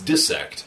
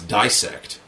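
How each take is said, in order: First: The first syllable sounds like 'dis'. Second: The first syllable sounds like 'dice'. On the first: The speaker calls it right. "it's dissect" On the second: The speaker calls it wrong. "which a lot of people pronounce dissect, and it's not dissect"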